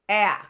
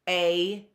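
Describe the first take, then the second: First: The vowel is a short, clipped sound. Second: The vowel sounds like the letter's name. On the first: "Short vowel sounds are a" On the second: "our long vowels, which say their name"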